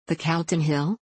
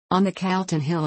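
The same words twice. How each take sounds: First: "The Calton Hill?" repeated with a rising end; questioning echo. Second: Said in the usual way. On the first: A narrator's reading. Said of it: "repeated Mister Nicholson".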